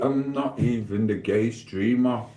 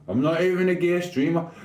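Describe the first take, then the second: First: Said in the usual way. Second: Higher-pitched protest, rising at the end; emphatic denial. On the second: Real, not acted. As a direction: repeat the denial in a raised pitch. Repeats the denial more emphatically.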